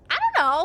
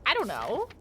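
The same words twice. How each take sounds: First: Playful repeat. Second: Said in the usual way. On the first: Shown as a demonstration.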